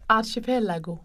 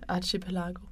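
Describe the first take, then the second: First: Italian pronunciation, stressing the 'elago' part. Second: Scandinavian pronunciation of the word. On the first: "han er fra Italien, og han siger jo Archipelago, med betoningen på Elago" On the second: "Og man er sådan svensk. Dansk. ... altså jeg siger archipelago"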